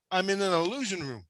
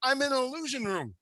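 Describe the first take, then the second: First: Said in the usual way. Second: Hushed eerie whisper. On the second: Acted. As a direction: breathe it like a secret. Whispered reveal, then repeated plainly.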